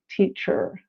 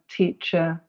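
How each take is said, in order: First: The ending has a clearly pronounced R sound. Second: The ending is a vowel with no R sound. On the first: "a different accent that is rhotic, that is where R is pronounced" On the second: "in received pronunciation is pronounced uh"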